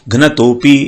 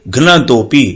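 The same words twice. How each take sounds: No difference in how they are said.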